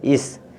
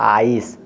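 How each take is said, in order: First: The vowel is a short 'i' sound. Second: The vowel is a long 'eye' sound. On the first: The speaker calls it wrong. "अगर हम इसको ई से करें तो इसको इस पढ़ेंगे" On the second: The speaker calls it right. "तो इस नहीं है तो इसलिए आइस"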